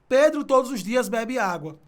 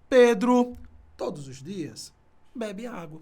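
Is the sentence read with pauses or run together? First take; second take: run together; pauses. First: It is read straight through without any pauses. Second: It has pauses and voice changes at the commas. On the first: You cannot tell which information is primary and which is secondary. The speaker calls it wrong. "pra que você não leia assim" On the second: The main and secondary information are clearly separated. The speaker calls it right. "Você lê assim: ... Tá vendo como eu mudo, tá? A direção da minha voz, e isso é uma inflexão"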